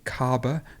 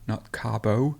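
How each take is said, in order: First: The vowel is reduced to a weak schwa. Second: The vowel is pronounced full and unreduced. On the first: The speaker calls it right. "there's a schwa here" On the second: The speaker calls it wrong.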